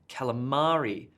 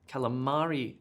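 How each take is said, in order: First: The stress falls on the expected syllable. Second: The stress falls on the expected syllable.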